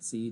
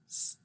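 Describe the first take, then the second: First: The letter is said as its full name. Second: The letter is said as its bare sound. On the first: "when I say the letters of the alphabet" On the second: "when I actually pronounce them in a word"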